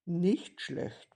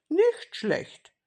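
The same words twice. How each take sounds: First: Said in the usual way. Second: "nicht" pitched high and louder, then falling; stress on nicht. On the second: A narrator's reading. Kasperl approving Seppel's plan of taking turns, emphatic "nicht". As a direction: punch "nicht" high, drop on "schlecht".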